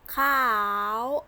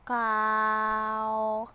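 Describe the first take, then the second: First: The word is said in tone eight. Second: The word is said in tone two. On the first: "Tone eight" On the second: "Tone two"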